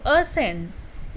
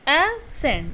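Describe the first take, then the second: First: Said in the usual way. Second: "ascend" split as a, then scend; two separate syllables. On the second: Shown as a demonstration. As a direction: say "ascend" in two distinct beats. ("ascend" को दो syllable में तोड़कर बोलना) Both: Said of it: "लेकिन इसमें syllable दो हैं".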